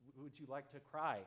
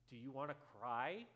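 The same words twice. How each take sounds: First: Softened, tentative question; careful, mild invitation to cry; gently offering. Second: Slightly blunt question with rising end; mildly pointed yes-or-no question; accusatory. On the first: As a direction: ask it kindly, without accusing. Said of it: "not like that accusatory, but". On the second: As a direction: ask it directly, pitch climbing on cry. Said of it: "not like that accusatory". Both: Acted.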